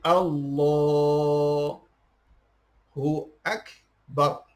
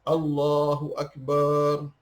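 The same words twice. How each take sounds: First: The vowel in the last syllable is short. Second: The vowel in the last syllable is drawn out. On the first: God is the Greatest. The speaker calls it right. "Akbar tak ada bacaan panjang" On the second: The meaning no longer becomes God is the Greatest. The speaker calls it wrong. "Dipanjangkan barnya"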